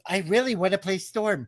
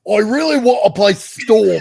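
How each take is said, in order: First: It is said in the speaker's ordinary accent. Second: It is said in a put-on British Cockney accent.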